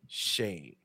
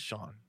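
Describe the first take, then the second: First: The vowel is a long A sound. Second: The vowel is an open 'ah' sound. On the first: The speaker calls it wrong. "I feel like that's like a long A, like Shane" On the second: The speaker calls it right. "But I understand that it's Shaan"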